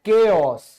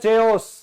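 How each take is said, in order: First: The word begins with a k sound. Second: The word begins with a ch sound. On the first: The speaker calls it right. "लेकिन ये होता है केओस" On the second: The speaker calls it wrong. "कई बोलते हैं चेओस"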